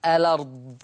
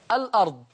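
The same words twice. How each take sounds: First: "الأرض" as a-lard, no glottal stop; hamza transfer. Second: "الأرض" as al-'ard, with glottal stop; original hamza. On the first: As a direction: glide the l of "الأرض" into the vowel. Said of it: "بالنقل في الألفاظ". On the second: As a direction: break "الأرض" after the l. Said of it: "تقرأ". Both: Shown as a demonstration.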